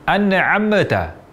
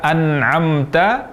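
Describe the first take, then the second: First: The m is released with a bouncing echo. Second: The m is closed plainly without a bounce. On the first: The speaker calls it wrong. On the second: The speaker calls it right.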